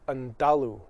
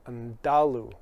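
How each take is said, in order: First: The middle consonant sounds like a D. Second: The same.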